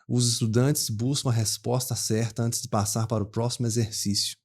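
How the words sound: A Belo Horizonte accent with a loose, uncurled R. "um mineiro de Belo Horizonte, ele não puxa o R, ele fala com R solto"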